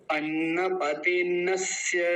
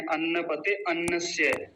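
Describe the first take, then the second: First: अन्नपते नस्य slowly joined, no अ before नस्य; correct pronunciation, अ dropped. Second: अन्नपते अन्नस्य with the second अ sounded; wrong pronunciation, अन्नस्य separate. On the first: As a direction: stretch अन्नपते and glide straight into नस्य. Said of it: "अ की आवाज नहीं आनी है". (अ हटाकर अन्नपते नस्य का धीमा उच्चारण) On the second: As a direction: show the mistake: अ voiced in अन्नस्य. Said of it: "कुछ लोग गलत उच्चारण करके क्या बोलते हैं". (अन्नस्य में अ बोलकर गलत उच्चारण) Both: Shown as a demonstration.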